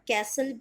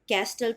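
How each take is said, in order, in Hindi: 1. 't' की आवाज़ silent है। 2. 't' की आवाज़ बोली जाती है। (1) "टी है साइलेंट" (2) "कैस्टल तो आप बोलोगे नहीं"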